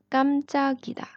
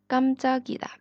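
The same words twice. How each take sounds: No difference in how they are said.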